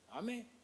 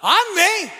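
First: It sounds doubtful and mocking. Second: It sounds joyful and believing.

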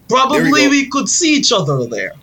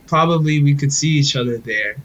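First: It is spoken in a put-on Russian accent. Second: It is spoken in a plain, neutral accent.

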